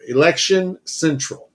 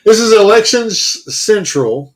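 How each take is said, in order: First: "Election central" said cleanly with the two words set apart; deliberate, unbroken "Election central"; careful retry. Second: "election central" stumbled, snagging on the s of "central"; halting "election s-, central"; tongue-tripped stumble. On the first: Shown as a demonstration. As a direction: separate "Election" from "central" and land both without tripping. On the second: Real, not acted. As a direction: trip between "election" and "central", drawing out a false s. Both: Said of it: "That's hard to say together".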